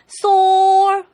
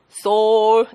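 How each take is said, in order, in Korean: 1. 이 단어는 아주 높은 음으로 말해요. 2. 이 단어는 낮은 음으로 말해요. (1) "굉장히 높은 사람이 있고" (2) "낮은 사람이 있어요"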